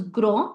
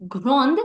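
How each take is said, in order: First: "grand" with the final d left silent; silent final consonant. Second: "grande" with the final d clearly sounded; final d pronounced. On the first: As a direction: end "grand" on the nasal vowel, no d. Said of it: "do not pronounce the last consonant". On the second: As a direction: end "grande" on an audible d. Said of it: "So instead of saying". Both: Shown as a demonstration.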